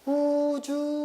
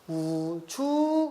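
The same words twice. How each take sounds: First: The word is said on a high pitch. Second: The pitch starts low and then rises. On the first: "높은 소리니까 우주 이렇게 높이 가는" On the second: "낮았다가 높아지는 거니까 우주 이렇게 가는 거고"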